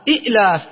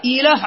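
First: إئلاف broken by a glottal catch after short i; original two-hamza form. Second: إيلاف with a long ii flowing into the l; lightened ya form. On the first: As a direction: halt on the second hamza of إئلاف before the long aa. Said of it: "أصلها". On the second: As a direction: say إيلاف smoothly, without any glottal stop. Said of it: "إيلاف هذه". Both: Shown as a demonstration.

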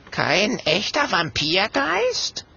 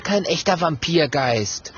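First: Slow, high, rising on Vampirgeist; drawn-out incredulous echo ending upward on Vampirgeist; doubtful question. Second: Said in the usual way. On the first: A narrator's reading. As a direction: ask it back warily, lifting Vampirgeist at the end. Frightened ghost asks back in disbelief.

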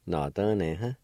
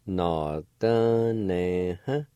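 First: Said in the usual way. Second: Nọ tơ nè hả drawn out slowly, each syllable clear; slow demo. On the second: Shown as a demonstration. Teacher models the word slowly for learners. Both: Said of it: "It's pronounced like this".

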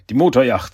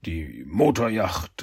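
First: "Motorjacht" said louder and quicker; recovered, emphatic. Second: Slow, low, drawn-out "Motorjacht"; stalling hesitation. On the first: Shredder remembers the rented boat, saying "Motorjacht" firmly and louder. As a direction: land "die Motorjacht" firmly after the hesitation. Says it again after stalling. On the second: Shredder caught out about the rented boat, hesitant and slow. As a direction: drag out "Die Motorjacht" as if searching for words. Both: Acted.

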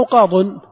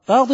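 First: "قاض" ending in -un, qaadun; damma tanween. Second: "قاض" ending in -in, qaadin; kasra tanween. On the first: Teacher offering students the other ending, qaadun with -un. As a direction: say "قاض" loudly as qaa-dun. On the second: Teacher quizzing students on the ending, qaadin with -in. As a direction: say "قاض" loudly as qaa-din. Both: Shown as a demonstration. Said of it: "قاض أو قاض".

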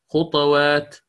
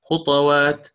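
First: خطوات with ط voiced with u, khutuwat; ta with damma. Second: خطوات with the ط unvowelled; silent ta. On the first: Teacher contrasts the damma reading for students, deliberate. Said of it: "لو كانت مضمومة". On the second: Teacher models the sukun reading for students, deliberate. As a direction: say خطوات with a still ط and a bounce. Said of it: "ولو أنا قرأتها بال-، بالإسكان". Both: Shown as a demonstration.

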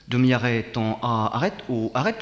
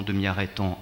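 First: "Demi-arrêt" called out loud, like a riding order; loud command. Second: Said in the usual way. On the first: Shown as a demonstration. Rider calling a loud command to the horse.

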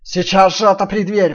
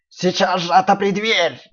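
First: Loud wolf growl, faster. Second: Slow loud wolf growl. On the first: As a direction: growl the order again. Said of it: "прорычал опять волк". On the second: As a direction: growl the order slowly. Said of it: "прорычал волк". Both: Acted.

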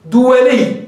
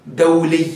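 First: دولي said as duwali, wrong plural-based form; wrong nisba form. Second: دولي said as dawli from the singular; دولي with short dawli; correct nisba form. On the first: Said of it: "هذا خطأ". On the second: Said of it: "تردها إلى المفرد". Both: Shown as a demonstration.

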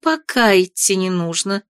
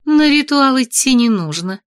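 First: "Пока" lifted and leaned on, rest falls; stress on ПОКА. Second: Said in the usual way. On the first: Acted. Mother correcting her words, stress on "Пока". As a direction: correct yourself by pressing "Пока". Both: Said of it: "Я не так выразилась".

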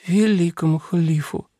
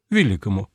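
First: Sleepy mumbled correction; sleep talking. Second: Said in the usual way. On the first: A narrator's reading. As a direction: mumble it half asleep. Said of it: "сквозь сон пробормотала принцесса". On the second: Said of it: "согласился Нуминорих".

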